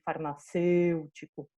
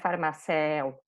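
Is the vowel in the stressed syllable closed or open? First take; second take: closed; open. First: The stressed vowel is said closed. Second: The stressed vowel is said open. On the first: The speaker calls it right. "Que eu pronuncio bem fechado" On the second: The speaker calls it wrong. "não é farmacéu"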